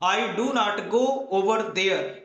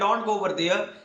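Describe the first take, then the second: First: Every word is said separately and in full. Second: The words are shortened into a contraction.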